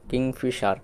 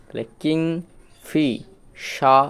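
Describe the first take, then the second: First: Said in the usual way. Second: কিংফিশার drawn out very slowly, syllable by syllable with a rise; slow demo pronunciation. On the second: Shown as a demonstration. Teacher showing pupils how কিংফিশার is said, very slowly. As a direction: stretch কিংফিশার out slowly for learners. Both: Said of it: "কিংফিশার উচ্চারণটা আসলো".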